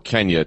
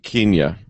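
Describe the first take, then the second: First: Kenya is pronounced the American way. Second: Kenya is pronounced the British way. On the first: "to appeal to the rest of America" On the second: "as the British would say it"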